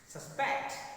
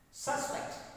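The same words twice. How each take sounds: First: The stress is on the second syllable. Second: The stress is on the first syllable. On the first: The word is a verb. "stress is shifted to second syllable when the words are verbs" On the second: The word is a noun. "I use that force on first syllable in my utterance"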